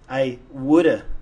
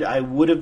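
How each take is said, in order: First: The words blend into a reduced form. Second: Each word is said fully and separately.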